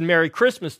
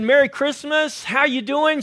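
First: Said in the usual way. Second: Higher, louder friendly hello; upbeat holiday greeting with a smile; smiling cheerful greeting. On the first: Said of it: "when I said". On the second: Retold or imitated. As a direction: beam it at a passer-by. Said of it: "when I smiled at her and said".

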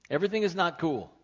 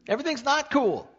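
First: Said in the usual way. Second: NOT cool, higher and louder; emphatic rebuttal. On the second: Acted. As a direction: punch "not" hard and high. Preacher rebuts careless attitude.

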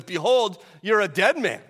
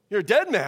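First: A hint of a mob boss, louder and punchy; mob boss threat. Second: Punchy mock mobster line; mob boss threat. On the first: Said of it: "like a mob boss". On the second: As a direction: threaten like a movie gangster, lightly. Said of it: "I don't know if he has an Italian accent".

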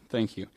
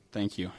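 Both takes have the same delivery.

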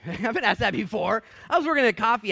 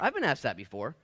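First: Laughing it out, pitched up and louder; real laugh through the line. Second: Said in the usual way. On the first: Real, not acted. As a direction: break into a laugh on it. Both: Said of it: "It's not funny".

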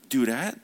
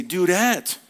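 First: Mild questioning lift at the end; questioning reply. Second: Higher, firm falling call; emphatic address. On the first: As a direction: offer it as a tentative question. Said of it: "And she would say". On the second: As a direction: call it out to get attention. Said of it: "I say". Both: Acted.

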